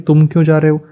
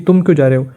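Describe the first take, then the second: First: It sounds like a real question about the reason. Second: It sounds like a protest urging the listener to stay.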